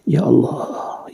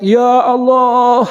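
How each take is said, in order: First: It is said quietly and gently. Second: It is said loudly, as a shout. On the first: God is near, so a quiet call is enough. "Munajat itu memanggil dengan pelan-pelan" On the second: God is far, so one must call out. "harus berteriak"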